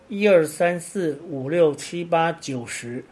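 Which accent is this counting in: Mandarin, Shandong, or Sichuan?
Mandarin. The numbers keep their standard Mandarin tones. "比方我们说"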